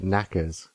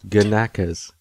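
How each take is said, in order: First: The initial G is silent, starting on n. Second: The initial G is pronounced before the n.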